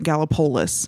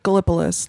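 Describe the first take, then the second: First: It is pronounced in a local American way. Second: It is pronounced like the Greek place name. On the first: "they pronounced it Gallipolis because America" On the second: "like Greece"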